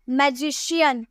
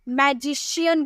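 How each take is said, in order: First: The middle consonant is an sh sound. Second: The middle consonant is an sh sound.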